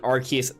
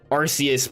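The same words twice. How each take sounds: First: The name starts with a hard 'ark' sound. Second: The name starts with a soft 'ar-see' sound. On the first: "it makes me feel like it's saying archaic" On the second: "probably makes more sense"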